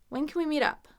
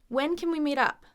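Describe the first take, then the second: The two takes are said the same way.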